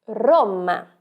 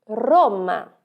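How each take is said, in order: The two takes are said the same way.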